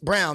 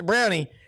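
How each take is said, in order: First: The name ends without any added vowel sound. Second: The name ends with an added 'ee' sound. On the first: The speaker calls it right. "no, it's Brown. The E is silent" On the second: The speaker calls it wrong. "somebody had said Mister Brownie"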